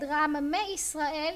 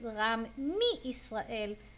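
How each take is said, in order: First: The prefix before Israel has an e vowel. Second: The prefix before Israel has an i vowel. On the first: The speaker calls it wrong. "You can say it like this" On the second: The speaker calls it right. "the correct way of saying is"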